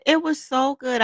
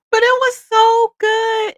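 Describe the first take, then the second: First: Said in the usual way. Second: High, loud, slow and drawn out; gushing excitement. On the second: Real, not acted. Telling viewers about the fried chicken dinner, loud gushing rave. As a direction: savor every word like the food.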